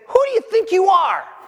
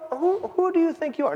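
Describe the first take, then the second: First: It is said with angry indignation. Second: It is said mildly and hesitantly.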